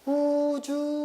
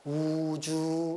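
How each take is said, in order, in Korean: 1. 이 단어는 높은 소리로 해요. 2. 이 단어는 낮은 소리로 해요. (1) "높은 소리니까 우주 이렇게 높이 가는" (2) "낮은 소리니까 우주 이렇게 가는 거지"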